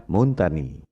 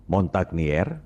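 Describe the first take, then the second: First: "Montagny" said French-style, mun-ta-nyee; French pronunciation. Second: "Montagnier" read as spelled, mon-tag-ni-er; Montagnier as written. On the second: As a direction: sound the g and final r in "Montagnier". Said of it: "ucapan dan tulisannya memang beda". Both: Shown as a demonstration.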